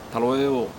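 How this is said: The S sound is dropped.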